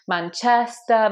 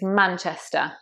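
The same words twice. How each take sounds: First: The stress is not on the first syllable. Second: The stress is on the first syllable. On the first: The speaker calls it wrong. "I've heard people say Manchester" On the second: The speaker calls it right. "It's Manchester"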